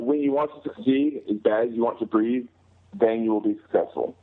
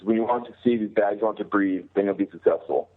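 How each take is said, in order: First: It is said a little more slowly. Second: It is said at normal speed.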